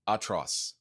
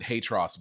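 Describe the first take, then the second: First: It is said with a French pronunciation. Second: It is said with an English pronunciation. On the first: The speaker calls it right. "pronounced in French" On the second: The speaker calls it wrong. "we always called it Hatros, but I know that's not the right way to pronounce it"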